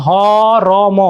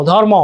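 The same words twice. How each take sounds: First: ধরম drawn out as dho-ro-mo; reph sounded first. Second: Said in the usual way. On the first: Shown as a demonstration. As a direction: split ধরম into separate sounds, র before ম. (ধরম, ভেঙে টেনে "ধ-র-ম") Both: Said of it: "রেফটা আগে হচ্ছে না".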